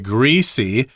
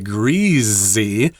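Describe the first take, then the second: First: The middle consonant is a hissing s sound. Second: The middle consonant is a buzzing z sound. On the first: The speaker calls it right. "most people will say greasy" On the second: The speaker calls it wrong. "which sounds really weird to me"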